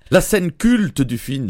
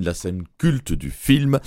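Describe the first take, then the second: First: "La scène culte du film" said slowly and higher, stressing "culte"; slow emphasis. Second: "la scène culte du film" repeated slowly and lower, stressing "culte". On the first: Host announcing the famous scene, slow and raised. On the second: Host repeating the famous scene, slow and lowered. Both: Shown as a demonstration.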